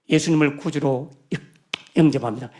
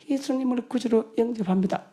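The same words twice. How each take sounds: First: It is said at a normal, clear volume. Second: It is said very quietly, barely audible.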